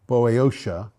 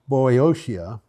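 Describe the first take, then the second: No difference in how they are said.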